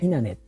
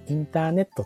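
First: The t sounds are dropped, giving inane. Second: The t sounds in the word are pronounced. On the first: "アメリカ英語では、イナネ、イナネって言いますよね" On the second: "インターネットっていうときに"

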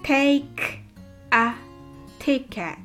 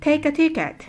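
First: It is said slowly. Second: It is said at natural speed.

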